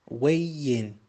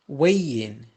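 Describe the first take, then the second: Both takes have the same delivery.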